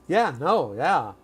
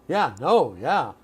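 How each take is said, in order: The two takes are said the same way.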